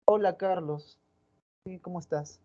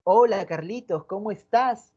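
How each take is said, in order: First: A much softer, indifferent hello; cold greeting. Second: A glad, interested hello to Carlitos; friendly greeting. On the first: Teacher demonstrating how another girl greets Carlos coldly. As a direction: greet him like he bores you. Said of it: "por parte de otra". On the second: Teacher demonstrating how one girl greets Carlitos kindly. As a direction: greet him like you're happy to see him. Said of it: "pero no es lo mismo un". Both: Shown as a demonstration.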